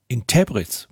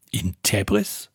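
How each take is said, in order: First: Said in the usual way. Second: Slow, quieter question rising on Tebris; a dazed son echoing his father; disbelieving echo. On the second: A narrator's reading. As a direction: repeat the place as if you can't believe it.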